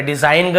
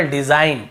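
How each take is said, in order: First: डिजाइन ग with an audible final G; wrong sounded-G pronunciation. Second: डिजाइन ending on plain N; silent-G pronunciation. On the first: Teacher warning students off this reading, डिजाइन ग with G. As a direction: say डिजाइन ग, G after the word. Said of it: "ऐसे नहीं पढ़ रहे". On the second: Teacher giving the only correct reading, डिजाइन without G. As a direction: say डिजाइन with the G dropped. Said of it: "केवल डिजाइन". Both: Shown as a demonstration.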